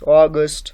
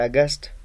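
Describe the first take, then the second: First: The first vowel has the standard 'aw' sound. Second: The first vowel has a different, nonstandard sound. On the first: The speaker calls it right. "we can say August" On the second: The speaker calls it wrong. "some students also mispronounce that word. They say August"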